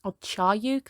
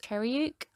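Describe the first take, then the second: First: "Charyuk" said with a, as Char-yuk, softer; "Charyuk" with a broad a, tentative; second guess at a name. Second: "Cheryuk" said with e, as Cher-yuk, rising; "Cheryuk" with an open e and a questioning rise; first guess at a name. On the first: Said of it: "I don't know, Charyuk". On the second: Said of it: "I'm probably gonna say this word so wrong". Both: Shown as a demonstration.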